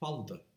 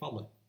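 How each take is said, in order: First: The double L is said as 'ld', East Cork style. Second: The double L is said as a plain 'll'.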